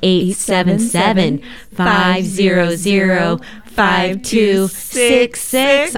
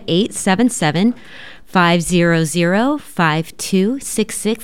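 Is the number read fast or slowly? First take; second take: slowly; fast. First: The number is read at a slower pace. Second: The number is read at a quicker pace.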